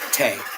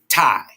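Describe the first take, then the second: First: The vowel sounds like 'ay' in 'day'. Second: The vowel sounds like 'eye' in 'tie'. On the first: The speaker calls it wrong. "she will cuss me out that I keep saying Tay" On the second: The speaker calls it right. "but it's actually tie. That's how you say it"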